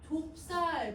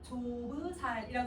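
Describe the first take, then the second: First: The b and s join with no vowel between. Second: A short vowel separates the b and s sounds. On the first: This is how the word is said today. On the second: This is how the word was probably said long ago.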